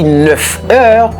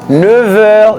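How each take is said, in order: First: Neuf is linked with an f sound. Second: Neuf is linked with a v sound. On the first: The speaker calls it wrong. "ou pas dit neuf heures" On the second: The speaker calls it right. "son F là l'a tourné V"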